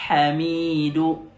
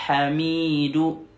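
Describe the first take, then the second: The two takes are said the same way.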